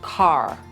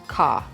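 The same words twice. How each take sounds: First: The final R sound is pronounced. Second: The final R sound is silent. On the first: "An American accent or a rhotic accent" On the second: "That's my accent, car"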